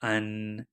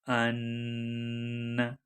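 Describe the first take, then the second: First: The n is a plain tongue-tip n. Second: The n is held strongly through the nose. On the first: "नून का मखरज" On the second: "गुन्ना में स्ट्रिक्टली नाक से आवाज़ निकाली जाती है"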